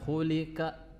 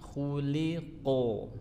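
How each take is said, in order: First: The middle consonant is a light k sound. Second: The middle consonant is a heavy, deep q sound. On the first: The speaker calls it wrong. "Bukan khulika" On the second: The speaker calls it right. "tapi khuliqo ... memiliki huruf yang tebal"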